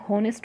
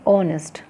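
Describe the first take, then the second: First: The word begins with an audible h sound. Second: The word begins directly with a vowel sound. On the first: The speaker calls it wrong. "इसको हम हॉनेस्ट नहीं बोलेंगे" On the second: The speaker calls it right. "ये जो एच है ये जो है ये हो गया साइलेंट"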